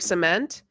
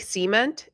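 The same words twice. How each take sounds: First: It is said the usual way outside Texas. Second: It is said the way Texans pronounce it. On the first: It is how people talk outside Texas. "instead of cement" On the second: It is how people talk where the speaker grew up. "I say cement instead of cement. Just where I grew up in Texas"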